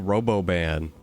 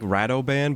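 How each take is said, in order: First: The name is said with a b sound: Roboban. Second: The name is said with a d sound: Radoban. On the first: The speaker calls it wrong. "but I always say Roboban" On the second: The speaker calls it right. "It is like Radoban"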